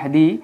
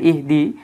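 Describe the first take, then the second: First: The 'i' vowel is dropped and the word links back. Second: The word starts with a short 'i' vowel. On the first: The word follows another word and joins onto it. "এই জায়গায় হামজাতুল ওয়াসলের কোনো উচ্চারণ নেই" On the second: The word stands at the start of the phrase. "যেহেতু হামজাতুল ওয়াসলের উচ্চারণ আছে, হরকত আছে"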